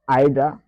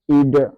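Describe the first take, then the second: First: It is said with a British pronunciation. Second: It is said with an American pronunciation. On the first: "c'est une prononciation britannique" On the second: "qui est une prononciation américaine"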